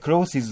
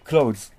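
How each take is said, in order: First: It has an extra vowel before the final z. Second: It is one syllable ending in z. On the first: The speaker calls it wrong. "これクローシーズって言っちゃダメだ" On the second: The speaker calls it right. "じゃなくて、クローズ。"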